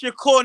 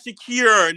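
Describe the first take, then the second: First: The last syllable sounds like 'kur'. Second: The last syllable sounds like 'kir'. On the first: The speaker calls it right. "And it's [name]" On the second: The speaker calls it wrong. "not Shakir"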